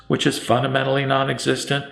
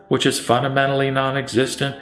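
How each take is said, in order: Both takes have the same delivery.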